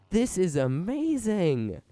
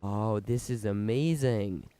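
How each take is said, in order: First: Higher, louder and slower with awe; thrilled. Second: Said in the usual way. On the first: Real, not acted. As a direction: savor each word in delight. Delighted at working machine.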